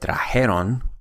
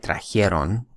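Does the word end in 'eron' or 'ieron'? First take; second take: eron; ieron. First: The ending is said as 'eron' without an i. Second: The ending is said as 'ieron' with an i. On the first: The speaker calls it right. "Notice that I said trajeron" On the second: The speaker calls it wrong. "I did not say trajeron, which is a very common mistake"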